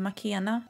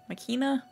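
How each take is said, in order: First: Makena with an E sound in the middle; trying a pronunciation. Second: Makina with an EE sound in the middle; alternative pronunciation. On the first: Streamer unsure how to say a friend's name, tries Makena with an E. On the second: Streamer unsure of the friend's name, tries Makina with an EE. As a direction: say Makina as ma-KEE-na. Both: Shown as a demonstration. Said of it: "I don't know hur man uttalar det".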